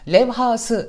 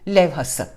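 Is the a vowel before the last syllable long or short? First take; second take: long; short. First: The a before the last syllable is long. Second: The a before the last syllable is short. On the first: The speaker calls it wrong. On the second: The speaker calls it right.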